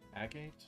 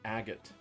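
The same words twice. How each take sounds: First: The stress is on the second syllable. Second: The stress is on the first syllable. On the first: The speaker calls it wrong. "I've been saying agate wrong my whole life" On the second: The speaker calls it right. "They emphasize the first syllable"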